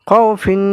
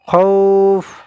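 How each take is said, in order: First: The word ends with an added 'in' sound. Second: The word ends abruptly on the 'f' sound. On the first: The reading continues without stopping. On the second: The reader stops at this word.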